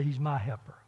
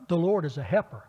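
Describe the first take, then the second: First: "my" stressed in "He's my helper"; firm weight on "my". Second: Said in the usual way. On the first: Shown as a demonstration. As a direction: hit "my" to show the helper is yours. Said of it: "and another to say". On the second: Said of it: "it's one thing to say".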